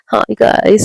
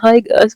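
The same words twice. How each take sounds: First: The greeting sounds plain, not sweet. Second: The greeting sounds sweet and affectionate.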